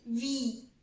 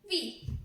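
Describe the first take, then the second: First: It is said as the full letter name. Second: It is said as a short bare consonant sound. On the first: "the modern pronunciation of V is V E E" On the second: "the alphabet sound of V is"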